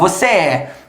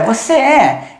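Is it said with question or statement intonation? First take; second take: statement; question. First: It is said with statement intonation. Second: It is said with question intonation. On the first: It states a fact. "Eu falo" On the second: It asks a question. "Se eu quiser perguntar, ... Eu mudo a entonação da voz"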